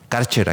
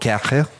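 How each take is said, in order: First: The name is said with a Mexican Spanish pronunciation. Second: The name is said with a German-style pronunciation. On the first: This is how people in Mexico commonly say it. "Karcher aquí en México" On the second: This respects the original language, a bit pretentiously. "para los que somos un poquito más... De respetar el idioma original"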